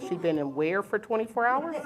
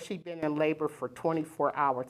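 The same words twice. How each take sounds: First: "twenty-four hours" rising at the end in disbelief; incredulous echo question. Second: Said in the usual way. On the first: Retold or imitated. Echoes the report back in disbelief.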